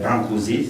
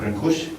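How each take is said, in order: First: The name is said with French pronunciation. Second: The name is said with Romanian pronunciation. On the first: "c'est ainsi qu'on prononce en français" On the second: "ou Brancusi, comme vous voulez"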